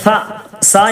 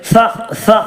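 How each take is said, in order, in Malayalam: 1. ഈ വ്യഞ്ജനം ചീറുന്ന s ശബ്ദമാണ്. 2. ഈ വ്യഞ്ജനം മൃദുവായ th ശബ്ദമാണ്. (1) "സ സ എന്ന് പറയരുത്" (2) "നാവിന്റെ തലഭാഗം അല്പം ഒരു ചെറിയ നിലക്ക് പുറത്തേക്ക് വരുന്ന രൂപത്തിൽ സ എന്ന് പറയുക"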